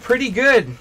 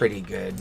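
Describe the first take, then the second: First: It sounds upbeat and content. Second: It sounds subdued and a little down. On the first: Things are going well. "if you're like ah pretty good" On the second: Things could be better. "a little like kind of under the weather"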